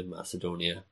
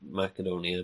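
First: "Macedonia" with a soft S sound. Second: "Macedonia" with a hard K sound. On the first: Trying both names for Alexander's homeland, "Macedonia" with an S sound. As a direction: say "Macedonia" as Mass-eh-doh-nia. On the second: Trying both names for Alexander's homeland, "Macedonia" with a K sound. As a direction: say "Macedonia" as Mack-eh-doh-nia. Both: Shown as a demonstration. Says the name two ways.

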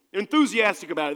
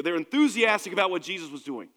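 First: "enthusiastic" hit louder, driven home; punched enthusiastic. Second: Plain statement leaning on "enthusiastic"; stress on enthusiastic. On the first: Preacher driving the point home to the congregation, louder stress on "enthusiastic". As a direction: repeat it and hammer "enthusiastic". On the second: Preacher telling the church about chair three people, stress on "enthusiastic". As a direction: say it once, weight on "enthusiastic". Preacher repeats key word. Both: Acted.

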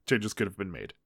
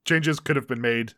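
First: Lower, softer aside; quiet repeated concession. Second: Said in the usual way. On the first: Real, not acted. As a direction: drop the voice for a subdued admission. Same concession repeated under the breath.

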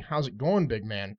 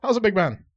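First: Said in the usual way. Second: Put-on higher, louder pikey accent, "How's it, big man?" rushed into one blur; fast pikey accent. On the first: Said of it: "He was saying". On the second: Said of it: "saying it so damn fast".

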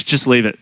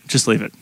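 First: Said in the usual way. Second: Just leave it, dropped lower and much softer; quieter repeat. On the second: Retold or imitated. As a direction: shrink the second "Just leave it" to a low hush. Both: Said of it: "And they're like".

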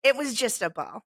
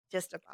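First: Said in the usual way. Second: "Just a ball" repeated much softer, to herself; soft echo. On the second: Real, not acted. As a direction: let it fade out as a quiet afterthought.

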